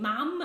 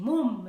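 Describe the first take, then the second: First: It is said with a southern English vowel. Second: It is said with a northern English vowel. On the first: This is the pronunciation being rejected. "I'm not saying mum" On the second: This is the pronunciation being insisted on. "I'm saying mum"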